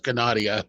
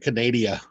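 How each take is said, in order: First: It is said in a put-on French accent. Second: It is said in a plain English accent.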